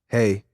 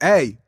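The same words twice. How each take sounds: First: It is said quietly and weakly. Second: It is said loudly and forcefully. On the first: It will not be heard. The speaker calls it wrong. "she's not gonna hear you" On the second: It will be heard. The speaker calls it right. "you have to be like"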